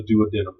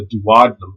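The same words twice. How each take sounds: First: "duodenum" as doo-uh-DEE-num, stress on the third syllable; duo-DEE-num variant. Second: "duodenum" as doo-AHD-num, stress on the second syllable; du-OD-enum variant. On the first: Teacher offering students the other pronunciation, "duodenum" as doo-uh-DEE-num. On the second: Teacher offering students either pronunciation, "duodenum" as doo-AHD-num. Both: Shown as a demonstration. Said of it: "It all depends on who taught you".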